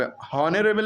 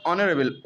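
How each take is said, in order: First: हॉनरेबल with a sounded h at the start; wrong pronunciation. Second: ऑनरेबल with silent h, opening on an o sound; correct pronunciation. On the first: Teacher showing students the wrong way, हॉनरेबल with the h sounded. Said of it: "हॉनरेबल नहीं पढ़ेंगे". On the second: Teacher showing students the right way, ऑनरेबल with silent h. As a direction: say ऑनरेबल starting straight on the vowel o. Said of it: "ओ की आवाज़". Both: Shown as a demonstration.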